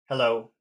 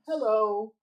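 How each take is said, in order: First: It is said low and cold. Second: It is said high and friendly. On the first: The greeter feels bothered. The speaker calls it wrong. "somebody greets you with a low tone, hello, that sounds very cold and unfriendly" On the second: The greeter is welcoming. The speaker calls it right. "people will greet you with a very high friendly tone"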